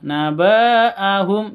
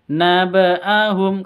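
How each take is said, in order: First: The vowels are drawn out long. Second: The vowels are all kept short. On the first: The speaker calls it wrong. "Jangan dibaca panjang. Naba'ahum jangan dibaca seperti itu" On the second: The speaker calls it right. "Naba'ahum ini pendek semua"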